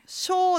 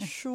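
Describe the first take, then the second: First: It is said as a plain 'sho' sound. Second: It is said with a gliding 'shuo' sound. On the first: The speaker calls it wrong. "ショーではないですね" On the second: The speaker calls it right. "シュオーです"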